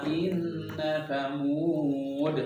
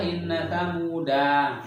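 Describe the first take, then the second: First: The word ends without a final vowel. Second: The word ends with a lengthened vowel. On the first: The speaker calls it right. "Tapi ketika waqaf" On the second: The speaker calls it wrong. "ketika waqaf nggak boleh dibaca panjang, nggak boleh"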